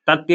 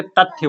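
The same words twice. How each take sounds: First: तथ्य as "tattiya", no breath on the t; the wrong तथ्य, unaspirated त; wrong consonant. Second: तथ्य as "tat-thya", with थ; aspirated consonant. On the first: Teacher showing what we don't say, तथ्य with plain त. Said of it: "तथ्य नहीं बोलते". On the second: Teacher correcting the reading, तथ्य with aspirated थ. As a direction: put a puff of breath on the थ of तथ्य. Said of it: "तथ्य बोलते हैं". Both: Shown as a demonstration.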